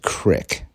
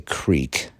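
First: The word is said with a short 'i' vowel. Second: The word is said with a long 'ee' vowel.

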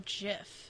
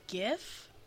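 First: The word begins with a J sound. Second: The word begins with a hard G sound. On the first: The speaker calls it right. "JIF, like the peanut butter" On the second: The speaker calls it wrong. "Is it GIF or JIF?"

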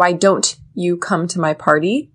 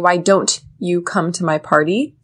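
First: Don't and you are said separately with clear t. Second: Don't and you are said separately with clear t.

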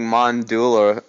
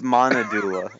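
First: The name is said without the middle syllable. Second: The name is said with the middle syllable. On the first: The speaker calls it wrong. "you've been getting Mondula wrong" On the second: The speaker calls it right. "It's Monadula"

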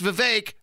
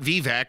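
First: The last syllable rhymes with cake. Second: The last syllable does not rhyme with cake. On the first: The speaker calls it right. "Vivek rhymes with cake" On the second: The speaker calls it wrong. "not Vivek or whatever the hell Mitt Romney said"

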